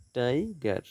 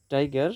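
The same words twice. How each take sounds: First: "tiger" as two beats, টাই, গার; split into syllables. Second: Said in the usual way. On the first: Shown as a demonstration. Teacher dividing syllables for students, "tiger" split in two. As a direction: stretch and separate "tiger" after টাই. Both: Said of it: "syllable বিভাজন".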